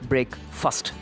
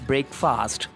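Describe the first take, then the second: First: The second syllable sounds like 'fust'. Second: The second syllable sounds like 'fast'. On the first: The speaker calls it right. "not F A S T but F U S T" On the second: The speaker calls it wrong. "generally we pronounce it as breakfast"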